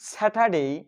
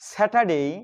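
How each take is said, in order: The two takes are said the same way.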